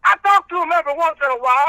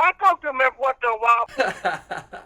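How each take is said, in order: First: Quick, raised reverend voice; preacher character. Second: Laughing. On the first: Acted. Reverend answering the host about his boys, in character. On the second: Real, not acted. Caller cracking up at his own reverend bit, laughing. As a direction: let the laugh take the line. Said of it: "All right, Reverend".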